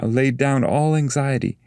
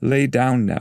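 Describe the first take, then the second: First: Higher soothing guide, weight on all; Virgil's voice. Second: Higher, soothing guide; falling, gentle command; Virgil's voice. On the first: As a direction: ease him out of fear. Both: Acted. Virgil calms Dante before the fire, higher soothing tone.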